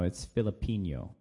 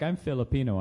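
First: "Filipino" said with an NY sound, Filipinyo; "Filipino" ending like Spanish "niño", low-pitched; joke mispronunciation. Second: Said in the usual way. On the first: Acted. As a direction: correct them jokingly, turning the end of "Filipino" into "-nyo". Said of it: "I just have to do it". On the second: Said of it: "it's Filipino".

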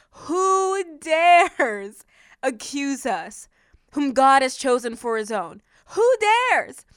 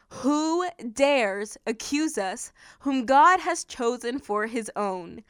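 First: "Who dares" drawn out very slowly and pushed up; overemphasized question. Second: Slow, deliberate verse reading; measured scripture reading. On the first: Shown as a demonstration. Preacher overemphasizing what Paul asked, "dares" stretched and punched. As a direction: lean hard on DARES, stretching it out. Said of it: "I want to overemphasize what Paul asked". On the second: Acted. Preacher reading Paul's question to listeners, measured. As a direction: read the verse out slowly.

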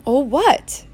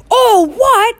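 First: Said in the usual way. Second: High, thunderous outraged echo; thundering. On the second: A narrator's reading. Hagrid outraged at Harry's question, thundering. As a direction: throw the question back as a roar. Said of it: "Hagrid thundered".

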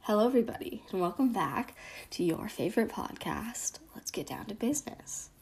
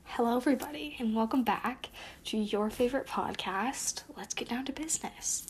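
First: Cheery podcast hello that sinks into a whisper; intro fading to whisper. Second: Podcast intro. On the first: Host retaking the intro, trailing off into a whisper. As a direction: start bright, end whispering the show name. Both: Acted.

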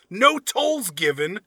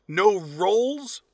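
First: Tolls said with a t, slowly; misread as written. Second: Said in the usual way. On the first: Shown as a demonstration. Reading the review's typo aloud, tolls said literally. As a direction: read tolls literally as typed. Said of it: "I'm gonna read it the way he put it". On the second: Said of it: "I'm gonna kinda correct him as we go".

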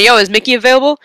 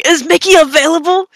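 First: Said in the usual way. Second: Mom bursting in. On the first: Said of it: "and I went". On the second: Retold or imitated. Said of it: "my mom bursting through my door ... going".

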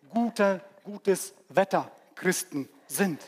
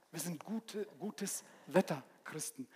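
First: Said in the usual way. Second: Quiet repeat. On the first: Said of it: "repeated phrase". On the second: Shown as a demonstration. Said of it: "quiet repeat of phrase".

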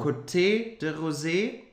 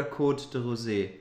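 First: "Côté" said as ko-TAY with a sounded final e; "Côté de Rosé" with the E at the end of "Côté" pronounced; French pronunciation. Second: "Côte" said as one syllable, kote, with a silent e; "Côte de Rosé" with no E sounded at the end of "Côte"; French pronunciation. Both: Shown as a demonstration. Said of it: "ist das jetzt Côte von der Rose oder Côté de Rosé?".

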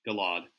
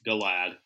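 First: Galad with an open "ah" in the last syllable; settled pronunciation. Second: Galad with a short "a" as in "lad"; trying a pronunciation. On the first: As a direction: say Galad ending like "lahd". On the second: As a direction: say Galad to rhyme with "glad". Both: Shown as a demonstration. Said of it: "Yeah, it's Galad".

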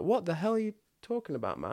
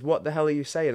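First: Much higher, baffled demand; incredulous. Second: Higher and louder, squaring up; pumped-up, louder challenge; pumped-up demand. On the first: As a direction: question him in disbelief. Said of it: "then I was quite pumped". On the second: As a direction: confront him, ready to scrap. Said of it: "I was quite pumped and I said". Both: Retold or imitated.

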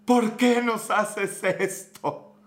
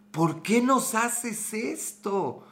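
First: Slow, drawn-out pleading cry; anguished plea. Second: Slow, stretched-out despairing plea; anguished plea. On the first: Fan pleading with his losing team, slow anguished lament. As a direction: beg the team like a heartbroken fan. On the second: Frustrated fan repeating his plea to the team, slow and despairing. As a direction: moan it like the team broke your heart. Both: Retold or imitated. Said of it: "terminaba gritando cosas como".

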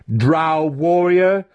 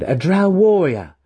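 First: High, slow, drawn-out mocking title; chiding. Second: High, loud, emphatic claim; proud declaration. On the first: Mentor throwing his student's title back, chiding. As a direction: stretch the title out in derision. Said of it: "Zack chided him". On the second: Student claiming his title before his mentor, proudly declaring. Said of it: "he declared". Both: A narrator's reading.

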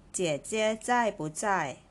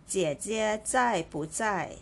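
Both takes have the same delivery.

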